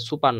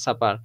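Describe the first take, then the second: First: সুপার with an "oo" in the first syllable; mispronounced first vowel. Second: সাপার with an "aa" in the first syllable; open first vowel. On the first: Teacher warning students off a misreading, সুপার with "oo" vowel. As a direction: say সুপার as "soo-par". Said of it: "এটা সুপার না". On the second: Teacher giving the word for night meal, সাপার with "aa" vowel. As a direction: say সাপার as "saa-par". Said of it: "এটা হচ্ছে সাপার". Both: Shown as a demonstration.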